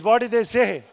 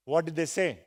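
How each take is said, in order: First: Loud, emphatic question to the class; loud call to the room. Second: Said in the usual way. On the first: Shown as a demonstration. Trainer urging the class to answer loudly, loud. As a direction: throw it out so everyone answers. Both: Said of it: "Loudly, please".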